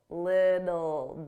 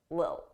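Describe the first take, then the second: First: The T sounds are said as soft D's. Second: The T sounds are dropped completely. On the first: "I pronounced them as soft D's" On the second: "completely drop those T's and they won't pronounce it at all"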